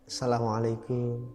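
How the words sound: The greeting is said in a gentle way.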